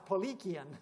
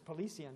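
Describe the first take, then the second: First: The consonant after 'li' is a k sound. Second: The consonant after 'li' is an s-like sound. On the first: The speaker calls it right. "no, it's Polikian ... they spell it with a K" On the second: The speaker calls it wrong. "I used to pronounce this Polician"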